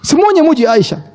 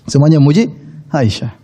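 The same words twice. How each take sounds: First: First take pitched well up and pushed; emphatic high. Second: Said in the usual way. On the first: Shown as a demonstration. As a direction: announce it high like big news. Preacher repeats key line for emphasis.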